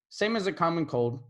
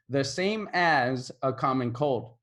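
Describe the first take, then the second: First: The words run together into one blended chunk. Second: Each word is said clearly and separately. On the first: "It kind of blends together" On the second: "if I were to say"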